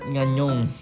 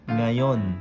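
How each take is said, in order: First: It is said with added nasal sounds, nganyong. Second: It is said cleanly as nga-yon. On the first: The speaker calls it wrong. "Not nganyong" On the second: The speaker calls it right. "Nga. Yon"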